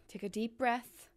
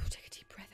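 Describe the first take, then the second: First: Said in the usual way. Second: Calming whisper. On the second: Real, not acted.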